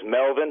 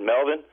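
First: Said in the usual way. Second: "Melvin?" asked back with a rising tune; questioning rise on Melvin. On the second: Retold or imitated. Caller repeats the ghost's name back, rising on "Melvin?" in disbelief. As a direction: echo "Melvin?" as a surprised question, pitch climbing at the end.

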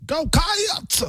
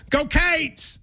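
First: "Cats" stretched into two syllables, much higher; "Cats" broken into "Ca-ats", high and drawn out; extra syllable. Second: "Go Cates" with Cats said like "Cates"; Kentucky fan drawling "Go Cates"; Kentucky pronunciation. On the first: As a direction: overdo the "Cats" vowel. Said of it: "You're adding a syllable". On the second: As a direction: show how a local says "Cates". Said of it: "in Kentucky would go". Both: Shown as a demonstration.

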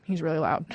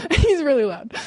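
First: Said in the usual way. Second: Louder and higher, acting it out. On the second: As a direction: say it loud, like him. Repeats line, second time louder.

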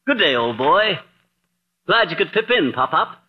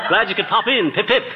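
First: Lightly hammed British toff accent, slipping on pip in; a touch of British toff that trips over its words; mock British accent, muddled. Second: Lightly hammed British toff accent, laughing as he fixes pop in; a touch of British toff, now getting it right; mock British accent, corrected. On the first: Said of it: "this Bond Street brogue". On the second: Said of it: "I mean, uh".

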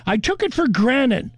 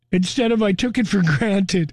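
First: "granted" said as granite, with the T and D blurred, a little higher; wrong granted. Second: Said in the usual way. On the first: Retold or imitated. Quoting a listener's mix-up, mock granite.

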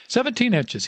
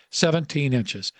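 First: Put-on old coach bellows it, pitched way up; bellowing confirmation. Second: Said in the usual way. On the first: A narrator's reading. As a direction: boom it off the walls, much higher. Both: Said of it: "his voice bellowing off the walls".

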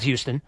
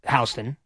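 First: Houston like the Texas city, "HYOO-stun"; as spelled. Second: First syllable of Houston rhymes with "cow"; local street pronunciation. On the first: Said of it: "but it's spelled Houston". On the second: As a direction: say Houston as "HOW-stun". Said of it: "it's pronounced Houston". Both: Shown as a demonstration.

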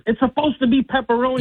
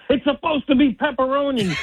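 First: Angry retort. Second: Raised-voice mock outrage, higher; furious dad yelling at the drive-thru worker; angry shout. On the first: Retold or imitated. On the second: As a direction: bark it at the window guy. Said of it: "and I said".

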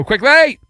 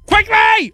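First: Said in the usual way. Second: Very high-pitched comic yell. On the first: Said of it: "Don't yell at me". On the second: Pretend. Hurrying the trivia along, yelled high. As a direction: holler it high and long. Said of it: "why are you yelling at me".

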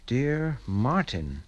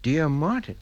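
First: Slow, measured read with a falling end; slow reading aloud. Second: Puzzled, questioning rise on Martin; baffled rereading. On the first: Father opens a mysterious letter and reads, slowly and deliberately. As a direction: read it out word by word, letting it drop. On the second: Father finds the letter addressed to himself, incredulous questioning. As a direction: read it back in disbelief, lifting at the end. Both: Acted.

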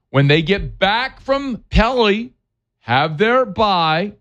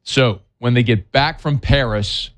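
First: Put-on slow, high French-accented Pelly. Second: Said in the usual way. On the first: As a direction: drawl it out in mock French. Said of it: "you like what I did there". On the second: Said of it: "plain Paris".

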